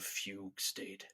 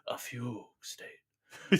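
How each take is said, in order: First: It is said in a plain everyday accent. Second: It is said in a put-on Elvish-style accent. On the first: The speaker calls it wrong. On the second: The speaker calls it right.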